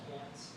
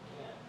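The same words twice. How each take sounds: First: The final T is fully released and strong. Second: The final T is cut off in the throat. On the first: The speaker calls it wrong. "we don't say that strong T in American English" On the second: The speaker calls it right. "We'll say"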